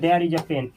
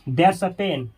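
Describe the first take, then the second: First: The words there and is are said separately. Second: There and is merge into one syllable. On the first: "देयर इज" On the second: "छोटा रूप में बोला जाता है देयर्स"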